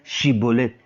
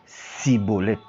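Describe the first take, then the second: First: The word begins with an sh sound. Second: The word begins with an s sound. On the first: The speaker calls it right. "Ils ne peuvent donc pas dire chibolette" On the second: The speaker calls it wrong. "ils disaient plutôt cibolette"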